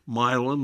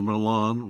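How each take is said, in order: First: The stress is on the first syllable. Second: The stress is on the second syllable. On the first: This is the local mispronunciation. The speaker calls it wrong. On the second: This is the original pronunciation. The speaker calls it right.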